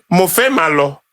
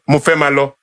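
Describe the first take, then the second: First: "Mo fẹ́ máa lọ" in an Ijebu accent; Ijebu Yoruba. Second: Said in the usual way. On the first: Shown as a demonstration. Ijebu man showing how he speaks Yoruba, Ijebu accent. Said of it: "I am an Ijebu man". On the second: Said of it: "which is Yoruba".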